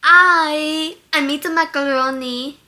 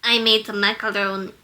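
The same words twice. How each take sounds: First: Louder, slightly higher Russian accent; Yelena. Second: Attempted Russian accent, pitched down a little; low Russian accent. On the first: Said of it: "And that's Yelena". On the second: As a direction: aim for a low Russian woman's voice. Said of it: "She does not go that low". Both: Shown as a demonstration.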